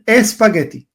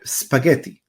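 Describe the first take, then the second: First: The word begins with an added e sound. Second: The word begins directly with an s sound. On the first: "los habla hispanos van a decir espagueti" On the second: "en inglés se dice spaghetti"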